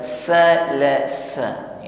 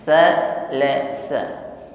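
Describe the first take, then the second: First: It is said with hissing 's' sounds. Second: It is said with soft 'th' sounds, no hiss. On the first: The speaker calls it wrong. "bukan salasa ya, tidak ada sopir atau bunyi desis" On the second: The speaker calls it right. "sama-sama tipis pengucapan dua kali huruf ta ya"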